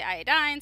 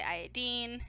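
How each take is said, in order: First: "iodine" ending like DINE; "iodine" rhyming with fine, EYE-uh-dine; pronunciation variant. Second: "iodine" ending like DEEN; "iodine" rhyming with seen, EYE-uh-deen; pronunciation variant. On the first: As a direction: say "iodine" with a long i in the last syllable. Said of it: "some people say iodine". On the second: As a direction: say "iodine" with an ee in the last syllable. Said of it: "some say iodine". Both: Shown as a demonstration.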